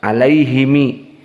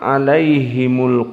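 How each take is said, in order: First: The vowels are i, then i. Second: The vowels are i, then u. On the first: This is the reading of a third tradition. "tidak bisa membaca dhammah, kasroh semuanya" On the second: This is the reading of one tradition. "dan ini qiraah dari Hafs"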